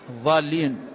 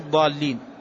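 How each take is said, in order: First: The doubled consonant is an emphatic th-like sound. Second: The doubled consonant is an emphatic d-like sound. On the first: The speaker calls it wrong. "الضالين بالضاء" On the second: The speaker calls it right. "غير الضالين"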